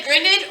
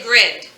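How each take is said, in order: First: "grinned" split into grin-ed; two-syllable mispronunciation. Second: "grinned" as grind with a short i, one syllable; one-syllable pronunciation. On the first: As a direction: say grinned with a full ED syllable at the end. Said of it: "both the E and the D making the ed". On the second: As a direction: say grinned with ED as just a D sound. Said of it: "We say grinned". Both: Shown as a demonstration.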